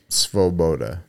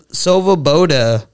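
First: Svoboda said slowly as "sfo-BO-da"; corrected pronunciation. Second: Svoboda slowly sounded out as "so-vuh-BO-da"; bastardized pronunciation. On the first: Shown as a demonstration. Co-host teaching the party's name, Svoboda as "sfo-BO-da". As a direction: run S and v together in Svoboda, lower, unhurried. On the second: Real, not acted. Reader struggling with the party's name, Svoboda bastardized as "so-vuh-BO-da". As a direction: stretch Svoboda with an extra vowel after the S. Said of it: "I'm bastardizing this name".

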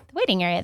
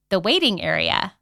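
First: "the waiting area" said in a light, falsely pleased tone; mock delight. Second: "the waiting area" set apart in air quotes, with a rise on "waiting". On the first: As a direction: pretend to find "the waiting area" lovely. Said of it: "And I'm like". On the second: Shown as a demonstration. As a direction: say "the waiting area" as if it's a joke name. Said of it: "I'm using air quotes".

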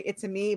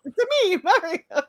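First: Said in the usual way. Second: High Mario catchphrase voice. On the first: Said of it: "they had to say". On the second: Retold or imitated. Joking that Mario only says his catchphrase, high Mario voice. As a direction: pop it out high like Mario himself. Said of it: "Imagine that's all he said".

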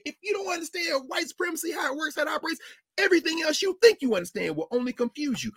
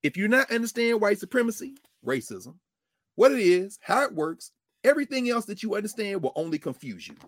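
First: Emphatic shouted quote. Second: Said in the usual way. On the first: Retold or imitated. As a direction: hammer the line home with a shout. Same quote repeated, shouted.

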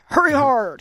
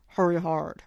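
First: Loud bark of hurry hard; curling skip yelling. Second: Said in the usual way. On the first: Retold or imitated. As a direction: yell it down the ice like a skip. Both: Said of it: "they yell a lot".

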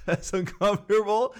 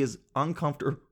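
First: Higher-pitched, laughing through the words. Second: Said in the usual way. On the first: Real, not acted. Teller imagines making everyone uncomfortable, laughing. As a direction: repeat it while cracking up.

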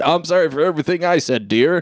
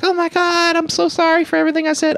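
First: Said in the usual way. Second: Very high, fast, breathless mock apology; overacted high-pitched apology rushed out in one breath; hammed-up gushing apology. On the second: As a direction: squeal the apology out in a put-on voice. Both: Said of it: "and they're like".

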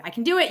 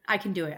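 First: Higher and louder, rallying herself; pumped-up pep talk. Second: Said in the usual way. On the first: Real, not acted. Tired worker psyches herself up for Friday, pumped. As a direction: cheer yourself on through the week. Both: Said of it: "almost the end of the week".

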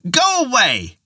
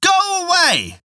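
First: High-pitched frightened cry; old woman crying out. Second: Very high, slow desperate cry; old woman crying out. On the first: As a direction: cry out high to drive the imp off. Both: A narrator's reading. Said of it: "she cried out loudly".

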